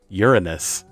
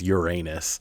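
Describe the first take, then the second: First: It begins with a 'urine' sound. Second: It is said without a 'urine' sound. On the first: This is the technically correct pronunciation. "the way that it's technically supposed to be pronounced ... it still has the word urine in it" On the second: This is the common everyday pronunciation. "if you pronounce it like the way that everyone does"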